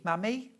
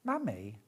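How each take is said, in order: First: "Mammy?" said as a question, pitch rising high at the end; a puzzled, rising "Mammy?"; questioning try. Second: "Mammy?" said lower and falling, as if deciding; trying the name as a statement; settling on it. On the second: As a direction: drop "Mammy?" down to a flat, settled fall. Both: Shown as a demonstration.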